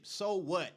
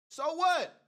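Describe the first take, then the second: First: Said in the usual way. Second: Much louder, higher, defiant; loud high So what? shouted in defiance. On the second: Real, not acted. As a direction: throw it back at the doubters. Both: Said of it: "repeated louder".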